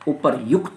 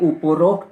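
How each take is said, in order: First: The middle is said with a 'ryu' sound. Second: The middle is said with a 'ro' sound. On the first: The speaker calls it right. "उपर्युक्त होता है" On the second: The speaker calls it wrong. "ये उपरोक्त नहीं होता"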